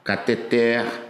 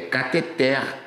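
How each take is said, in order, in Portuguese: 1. A tônica está na última sílaba. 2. A tônica está na última sílaba.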